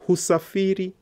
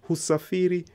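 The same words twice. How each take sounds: First: Husafiri said high and loud, each syllable clear; model pronunciation. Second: Husafiri said high and clear, syllable by syllable; model pronunciation. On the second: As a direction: repeat Husafiri clearly for students. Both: Shown as a demonstration. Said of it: "teacher models Swahili word".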